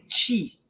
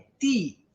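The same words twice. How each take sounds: First: The t sounds like ch before i. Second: The t is a plain, crisp t sound. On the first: The speaker calls it wrong. "não tem esse ti" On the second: The speaker calls it right. "é ti"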